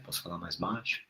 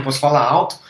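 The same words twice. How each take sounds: First: Much softer, lower, almost murmured; speaking quietly. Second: Louder, pushed out with intensity; speaking loudly. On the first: Live host showing viewers she can speak softly. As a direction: drop the voice right down. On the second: Live host showing viewers she can speak loud. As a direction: raise the volume to show it. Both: Shown as a demonstration.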